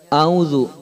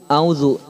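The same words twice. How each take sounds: Both takes have the same delivery.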